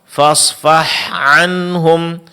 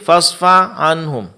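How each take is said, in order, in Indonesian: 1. Bunyi h diucapkan dengan jelas. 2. Bunyi h lemah dan tidak jelas. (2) "Di sini huruf H-nya tidak jelas"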